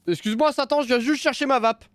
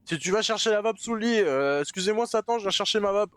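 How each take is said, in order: First: High, timid polite apology; high mock-polite voice. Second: Mock-polite plea. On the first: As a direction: squeak it out politely to Satan. Polite plea to demon. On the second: Reenacting timid plea to Satan.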